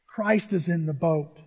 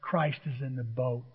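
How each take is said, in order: First: Said in the usual way. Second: Firm quiet declaration. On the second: Shown as a demonstration. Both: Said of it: "look at him right in the eyes and say".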